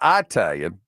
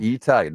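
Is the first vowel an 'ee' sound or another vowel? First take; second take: other vowel; ee. First: The first vowel is not an 'ee' sound. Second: The first vowel is an 'ee' sound. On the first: The speaker calls it wrong. "not Italian" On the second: The speaker calls it right. "always pronounced like the double E in the word C"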